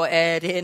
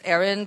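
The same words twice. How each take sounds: First: The r sound in the name is dropped. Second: The r sound in the name is pronounced.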